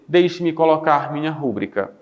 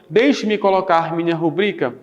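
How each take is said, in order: First: Rubrica is stressed on its first syllable. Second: Rubrica is stressed on its second syllable. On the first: The speaker calls it wrong. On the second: The speaker calls it right.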